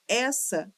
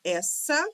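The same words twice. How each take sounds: First: Said in the usual way. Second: "Essa" split as es-sa, second part lifted; sounded out. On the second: Shown as a demonstration. Teacher counting letters and sounds, "Essa" sounded out in two pieces. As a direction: spell out "Essa" by ear in two separate pieces. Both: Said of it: "de letras e de sons".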